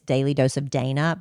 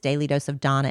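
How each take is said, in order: First: The name is said with a Dana vowel. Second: The name is said with a Donna vowel. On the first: This is how the spelling suggests it. The speaker calls it wrong. "you might think it's" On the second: This is how the host says her name. The speaker calls it right. "is how she pronounces it"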